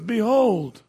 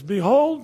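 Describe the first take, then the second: First: Behold rung out loud and slow-falling; proclaiming. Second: Loud, ringing Behold; proclaiming. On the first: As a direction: announce Behold to the room. Proclaims scripture word again. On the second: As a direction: call out Behold like a herald. Proclaims scripture word. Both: Acted.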